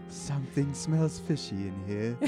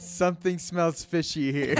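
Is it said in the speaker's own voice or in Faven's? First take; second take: Faven's; own voice. First: It is said in Faven's character voice. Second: It is said in the speaker's own voice.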